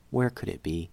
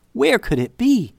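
First: Softer, lower worried question; hushed and anxious; quiet, worried. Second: Panicked. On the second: Sudden panic over lost necklace. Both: A narrator's reading.

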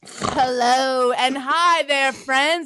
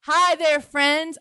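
First: Stretched, over-sweet hello; weird podcast greeting. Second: Brighter, quicker hi; retry the greeting more natural; second try at greeting. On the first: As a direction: greet them too sweetly. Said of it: "the hello, friends was weird". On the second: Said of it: "Let me try that again". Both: Shown as a demonstration.

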